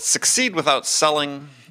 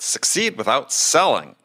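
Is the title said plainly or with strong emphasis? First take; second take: plainly; strong emphasis. First: The title is said plainly, without extra emphasis. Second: The title is said with strong, emphatic force.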